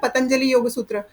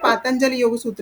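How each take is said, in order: First: The first vowel of the name is short. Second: The first vowel of the name is long. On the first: This is how people commonly say it. "जैसे हम बोलते हैं ना" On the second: This is the text's actual name. "उसका नाम actually"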